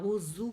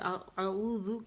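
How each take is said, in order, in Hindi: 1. z ध्वनि गूंजने वाली है। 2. z ध्वनि सादी है, इसमें गूंज नहीं है।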